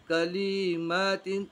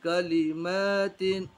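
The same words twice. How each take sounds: First: कलिमातिन with the लाम wrongly stretched; wrong pronunciation. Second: कलिमातिन with only the मी drawn long; correct pronunciation. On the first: Teacher showing pupils the wrong reading of कलिमातिन. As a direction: draw out the ला in कलिमातिन, the mistake. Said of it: "अगर कोई आदमी इस तरीके से पढ़े ... तो ये गलत है". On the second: Teacher showing pupils the correct reading of कलिमातिन. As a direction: keep ल short and stretch मी in कलिमातिन. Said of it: "सही तलफ़ुज़ ये है". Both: Shown as a demonstration.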